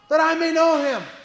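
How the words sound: It is said with deep, earnest longing.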